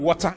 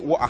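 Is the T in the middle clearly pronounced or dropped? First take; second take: pronounced; dropped. First: The T in the middle is clearly pronounced. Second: The T in the middle is dropped. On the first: The speaker calls it wrong. "you shouldn't be pronouncing the T" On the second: The speaker calls it right. "say water"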